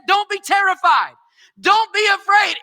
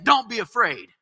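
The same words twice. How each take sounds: First: "Don't" shouted high and loud; shouted proclamation. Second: Said in the usual way. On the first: Acted. Preacher repeating Jesus's words, now high and shouted. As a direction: preach "Don't be terrified" at full force. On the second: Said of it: "Jesus is saying".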